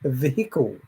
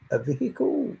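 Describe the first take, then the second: First: Said in the usual way. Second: Vehicle said much higher and softer; playful high echo of vehicle; high-pitched repeat. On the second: Shown as a demonstration. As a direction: lift vehicle up high and soft.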